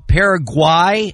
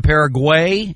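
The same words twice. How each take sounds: First: Paraguay with the last syllable rhyming with "eye"; new pronunciation. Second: Said in the usual way. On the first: Shown as a demonstration. TV host showing the newer name, Paraguay said "para-GWY". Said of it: "different pronunciations". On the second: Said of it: "instead of Paraguay".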